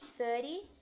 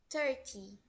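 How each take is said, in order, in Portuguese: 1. O "th" é um som suave, tipo um chiado. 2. O "th" é dito como um "t". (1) "thirty no inglês americano teria um som de S, Z" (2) "no inglês irlandês eles pronunciam thirty"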